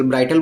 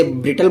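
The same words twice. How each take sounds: First: ब्राइटल with 'ai' as in 'bright'; long-i pronunciation. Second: ब्रिटल with a short 'i' as in 'bit'; short-i pronunciation. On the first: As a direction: say ब्राइटल as 'BRY-tul'. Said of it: "कुछ बच्चे ब्राइटल बोलते हैं". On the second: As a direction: say ब्रिटल as 'BRIT-ul'. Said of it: "कुछ बच्चे ब्रिटल बोलते हैं". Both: Shown as a demonstration.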